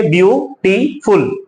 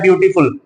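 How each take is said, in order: First: ब्यूटीफुल said slowly, each syllable apart; drawn out by syllables. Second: Said in the usual way. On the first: Shown as a demonstration. Teacher showing students the syllables, slow and drawn out. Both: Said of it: "तो हम उसे कैसे बोलेंगे?".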